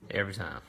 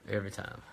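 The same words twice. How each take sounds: First: Chuckling through the words; laughing. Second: Said in the usual way. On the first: Real, not acted. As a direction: laugh it out softly. Laughing at son's repeat goodbyes.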